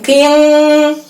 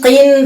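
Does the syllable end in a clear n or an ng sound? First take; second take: ng sound; clear n. First: It ends in a nasal ng sound. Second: It ends in a clear n sound. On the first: The speaker calls it wrong. "bukan qing" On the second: The speaker calls it right. "tapi jelas"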